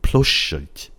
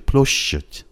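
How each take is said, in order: The two takes are said the same way.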